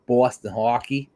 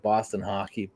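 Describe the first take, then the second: First: Put-on Boston accent with rounded vowels; mock Boston accent. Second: Said in the usual way. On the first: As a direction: make fun of a Boston accent. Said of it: "their Bostonian accent". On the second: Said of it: "making fun of their".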